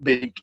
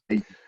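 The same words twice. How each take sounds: First: The vowel sounds like the one in beak. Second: The vowel sounds like the one in bake. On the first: The speaker calls it wrong. "it's not big" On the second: The speaker calls it right. "as in Baker Cake"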